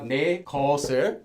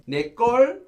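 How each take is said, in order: First: The second word has two syllables, geos-eul. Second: The second word is one syllable, geol. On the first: "So now we have 내 것을, my thing, object marker" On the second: "We've also pronounced as 걸"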